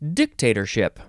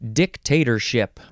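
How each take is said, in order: First: The stress is on the first syllable. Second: The stress is on the second syllable.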